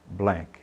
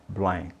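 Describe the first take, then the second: The two takes are said the same way.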